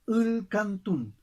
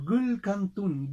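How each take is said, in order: First: The word begins directly with a vowel. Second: The word begins with a g sound.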